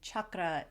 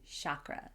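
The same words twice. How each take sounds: First: The word begins with a 'ch' sound. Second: The word begins with a 'sh' sound. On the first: "chair turned into share" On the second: "chair turned into share"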